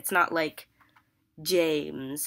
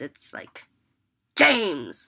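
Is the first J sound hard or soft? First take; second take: soft; hard. First: The J at the start is soft and relaxed. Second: The J at the start is hard and harsh. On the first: The speaker calls it wrong. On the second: The speaker calls it right. "you have to say J really hard"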